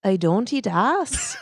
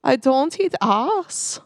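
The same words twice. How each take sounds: First: Slow, shaky attempt at a Scottish brogue. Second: Very slow, higher, put-on German accent. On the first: Co-host trying accents on a test phrase, Scottish brogue. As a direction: try a Scottish accent, drawn out slowly. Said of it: "a Scottish brogue". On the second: Co-host trying accents on a test phrase, German accent. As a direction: try a heavy German accent, drawing out each word. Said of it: "let me try the German". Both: Shown as a demonstration.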